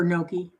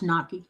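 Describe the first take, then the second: First: GNOCCHI said NOH-kee, with a round OH; alternative pronunciation. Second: GNOCCHI said NAH-kee, with an open AH; pronunciation demo. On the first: Host offers a listener the other pronunciation, GNOCCHI as NOH-kee. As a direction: say GNOCCHI with first syllable like "no". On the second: Host shows a listener the first pronunciation, GNOCCHI as NAH-kee. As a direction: say GNOCCHI with first syllable like "knock". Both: Shown as a demonstration. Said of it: "It's pronounced gnocchi or gnocchi".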